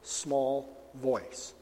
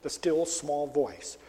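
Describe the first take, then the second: First: Still, small voice, softer; softly voiced small voice. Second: Still, small voice, slow and soft; slowly savoured still small voice. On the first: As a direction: let it sink to a soft hush. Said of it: "that still, small voice". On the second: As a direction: draw it out slowly. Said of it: "incredible thing to hear". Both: Shown as a demonstration.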